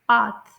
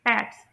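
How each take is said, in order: First: The vowel is a long 'ah' sound. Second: The vowel is a short 'a' sound. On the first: "British English में आ की sound, long आ की sound" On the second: "American English में हम इसे pronounce करेंगे"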